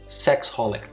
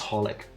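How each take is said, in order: First: The name begins with an extra 'sex' sound. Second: The name begins directly with 'holic'. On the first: The speaker calls it wrong. "I always read it as sex holic" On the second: The speaker calls it right. "it's just holic"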